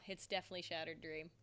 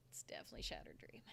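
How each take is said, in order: First: Said in the usual way. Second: Secretive whisper of the same answer; whispered aside. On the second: Real, not acted. Telling viewers a favorite, whispered conspiratorially.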